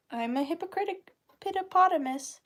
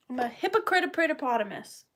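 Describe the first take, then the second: First: "hypocritic" said by mistake, an extra syllable on the end; flubbed word. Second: "hypocrite" said cleanly, just two syllables after the slip; corrected word. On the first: Joking about herself to viewers, she mispronounces "hypocritic". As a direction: trip over "hypocritic" before catching it. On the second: Correcting herself to viewers, she says "hypocrite" cleanly. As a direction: fix it to "hypocrite" without the extra syllable. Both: Real, not acted.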